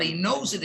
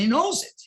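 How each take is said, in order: First: Said in the usual way. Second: "knows" lifted high and punched; stress on knows. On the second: Shown as a demonstration. Teacher stresses that the student truly knows it, hitting "knows" high. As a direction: lean hard on "knows". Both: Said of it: "Doesn't mean he learned a thousand".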